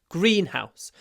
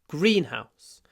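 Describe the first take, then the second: No difference in how they are said.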